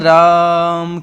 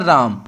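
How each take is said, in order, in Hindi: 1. स्वर सामान्य से बहुत ज़्यादा खींचा गया है। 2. स्वर सामान्य लंबाई में बोला गया है। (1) "जो आ है इसको आपने यहां तक खींचा" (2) "ये तो सिंपल बोला"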